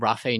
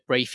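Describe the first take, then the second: First: The word is pronounced the French way. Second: The word is pronounced the English way. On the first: "if they're French" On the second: "I've heard it Rafe in England"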